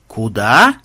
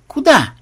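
First: Low, drawn-out КУДА rising at the end; astonished. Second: High, short falling КУДА; quick question. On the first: A narrator's reading. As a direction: stretch КУДА in disbelief, swooping up. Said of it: "изумились тестеры". (изумлённо, протяжно: КУДА) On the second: Acted. Testers question the monk. (коротко, высоко: КУДА)

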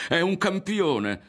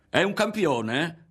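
First: High, slow, loud proclamation falling at the end; impassioned cry, firmly falling; about to shout. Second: High, slow, loud, rising at the end; jeering, rising disbelief; mocking question. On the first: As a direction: proclaim it with fervour. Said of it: "stava per gridare". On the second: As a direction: draw it out in mock wonder. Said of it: "E rideva". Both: A narrator's reading.

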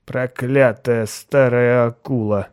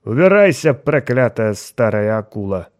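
First: Put-on slow slurred drunken mutter; slurred cynical barfly. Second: Put-on loud slurred drunken curse; slurred cynical barfly. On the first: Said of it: "снова пробормотал он". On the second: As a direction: snarl it like a drunk sailor. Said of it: "пьяным голосом".

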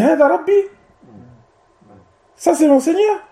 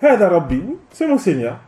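First: "hadha rabbi" and "Ça c'est mon Seigneur" as high, rising questions of rejection; disbelieving question. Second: "Hadha rabbi, c'est mon Seigneur" as a falling statement; plain assertion for debate. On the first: Teacher shows Ibrahim rejecting the star, "hadha rabbi", "Ça c'est mon Seigneur" as incredulous questions. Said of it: "c'est une question pour rejeter, pour blâmer". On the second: Teacher shows Ibrahim conceding for debate, "Hadha rabbi, c'est mon Seigneur" as a falling statement. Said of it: "il a fait cela pour rentrer dans le débat".

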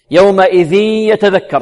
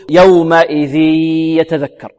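First: "يومئذ يتذكر" higher, tanween merged into a long nasal y; merging with ghunna. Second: "يومئذ يتذكر" with a long purely oral ee into the y, no nasal hum; merging without ghunna. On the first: Shown as a demonstration. Teacher demonstrating the correct merge, idgham with ghunna. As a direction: hum through the nose as "يومئذ" melts into "يتذكر". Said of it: "إدغام بغنة". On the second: Retold or imitated. Teacher imitating some students' mistake, merge lacking ghunna. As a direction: stretch the end of "يومئذ" through the mouth only. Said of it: "بدون غنة، يقول".

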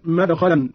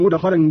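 First: Short a after the first letter of مدخلا; fatha on mim. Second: Said in the usual way. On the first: Shown as a demonstration. Teacher showing Qalun's reading, مدخلا with fatha on mim. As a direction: say مدخلا as "madkhalan", opening with ma-. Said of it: "بفتح الميم من دخل الثلاثي". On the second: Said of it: "قرأ قالون".

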